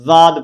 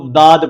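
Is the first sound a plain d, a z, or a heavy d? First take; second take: z; plain d. First: It begins with a z sound. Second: It begins with a light, plain d sound. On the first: "जा के मुशाबे करना है, जाद पढ़ती हैं, तो ये भी गलत है" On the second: "लफ्ज वाद को दाद पढ़ते हैं, दाल के साथ मुशाबे करते हैं"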